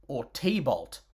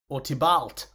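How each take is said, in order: First: "T-Bolt", the voice actor's mangled version; "T-Bolt" said like a brand name, stress on Bolt; T-Bolt pronunciation. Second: "Tybalt" with a short i, tib-alt; the proper "Tybalt", first syllable stressed; Tybalt pronunciation. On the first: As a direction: say "T-Bolt" as two clipped syllables, tee bolt. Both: Shown as a demonstration. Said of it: "whichever way the voice actor chooses to pronounce it".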